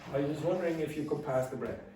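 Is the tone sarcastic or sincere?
sincere. It is said in a sincere, polite tone. It is a genuinely polite request. "all of this together makes that a polite request"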